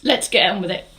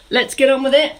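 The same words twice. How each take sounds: First: Said in the usual way. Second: Higher and louder, "Let's get on with it" punched to rouse the class; rally the group to start moving; upbeat rallying call. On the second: Shown as a demonstration.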